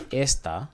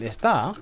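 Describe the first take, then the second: First: Esta stressed on the opening es; stress on first syllable. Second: Esta with the final ta stressed; stress on last syllable. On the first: Teacher showing it without accent, esta stressed on ES. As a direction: put the weight on ES in esta, ending unstressed. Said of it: "esta without accent is this". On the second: Teacher contrasting is with this, esta stressed on TA. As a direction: lean on the TA at the end of esta. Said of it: "do not forget to pronounce that accent". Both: Shown as a demonstration.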